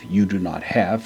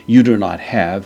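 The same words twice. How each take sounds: First: Said in the usual way. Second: "you do not have" said louder, with a lift on "you"; emphatic translation. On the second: Shown as a demonstration. Teacher stressing Peter's denial, louder. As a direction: push the denial harder.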